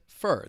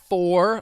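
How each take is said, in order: First: The word has a reduced, weak vowel. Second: The word has a full, clear vowel. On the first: "you may hear people pronounce it fur" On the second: "Instead of four, like the number four"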